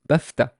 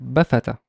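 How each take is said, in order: First: The f is followed directly by t. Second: An a vowel is inserted after the f. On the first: The speaker calls it right. "if I want to be very careful in pronouncing it" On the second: The speaker calls it wrong. "let's assume that the fa had fatha"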